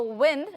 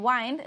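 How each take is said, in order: First: "wind" with a short i, WIND like in tinned; wind as air. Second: "wind" with a long i, WYND rhyming with kind; wind as turn. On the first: Teacher contrasting the two words for students, short i. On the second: Teacher contrasting the two words for students, long i. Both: Shown as a demonstration. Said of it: "the pronunciation is a bit different".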